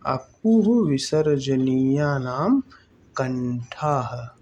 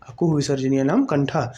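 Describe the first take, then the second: First: Slow, word by word for writing down; slow dictation. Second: Fast run-through of अकुह विसर्जनीय नाम कंठा; brisk recital, no pauses; quick recap. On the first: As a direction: spell out अकुह विसर्जनीया नाम कंठाः slowly so students can write. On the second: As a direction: rattle off the rule at speed. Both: Shown as a demonstration. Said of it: "क्या आप भी लिखेंगे मेरे साथ".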